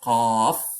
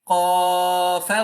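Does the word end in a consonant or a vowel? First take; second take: consonant; vowel. First: The word ends on a stopped consonant. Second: The word ends with an added vowel sound. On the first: The speaker calls it right. "You have to stop as Qaf" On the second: The speaker calls it wrong. "You cannot say Qafa"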